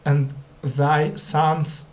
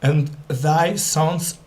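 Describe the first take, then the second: No difference in how they are said.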